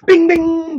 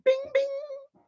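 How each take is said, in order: First: Loud, high, ringing bing; chime imitation. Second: Very high, soft ringing ding; chime imitation. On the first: Demonstrating just like that, loud high chime. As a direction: sing out a loud bell sound. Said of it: "just like that". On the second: Showing the gentlemanly thing, high soft chime. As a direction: ring it out like a little bell. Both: Shown as a demonstration.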